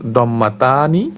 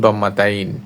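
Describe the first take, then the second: First: The word ends with the syllables 'ta-ni'. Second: The word ends with the syllable 'tain'. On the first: This is the Arabic form. "আরবিতে একে বলা হয়" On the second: This is the common Bengali form. "প্রচলিত বাংলায় উচ্চারণ"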